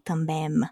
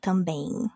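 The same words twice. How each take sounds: First: The final M is closed with the lips. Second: The final M is an open nasal sound. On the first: The speaker calls it wrong. "we don't say ... também" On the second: The speaker calls it right. "We would say ... também"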